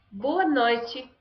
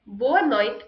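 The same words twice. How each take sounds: First: "Boa noite" with noite as "noy-chee"; Brazilian accent. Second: "Boa noite" with noite as "noyt"; European accent. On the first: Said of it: "which one is Brazilian". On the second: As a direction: European take, noite stops on its t. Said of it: "which accent is European". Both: Shown as a demonstration.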